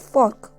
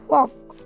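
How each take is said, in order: First: The r sound is pronounced. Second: The r sound is silent. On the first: "American language में इसे आर को silent नहीं रखा जाता है" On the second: "इसमें आर साइलेंट होता है और ये डब्ल्यू का साउंड देता है।"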